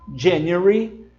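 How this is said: It is said with a British accent. "os britânicos dizem"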